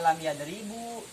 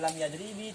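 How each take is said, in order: First: The second word ends with a final u vowel. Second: The second word ends with a final i vowel. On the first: "Tidak dibaca" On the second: "tidak dibaca"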